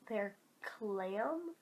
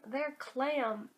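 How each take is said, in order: First: Puzzled question. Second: Said in the usual way. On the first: Shown as a demonstration. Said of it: "is that a phrase that people say".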